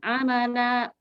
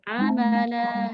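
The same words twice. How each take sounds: First: The final vowel stops abruptly like a catch. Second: The final vowel is lengthened and flows smoothly. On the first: The speaker calls it wrong. "kalau gitu ada kayak jeda" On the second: The speaker calls it right. "panjangkan dua harokat, alirkan saja"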